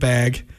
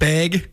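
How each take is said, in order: First: It has a standard general American vowel pronunciation. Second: It has a regional Montana vowel pronunciation. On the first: The speaker calls it right. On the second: The speaker calls it wrong.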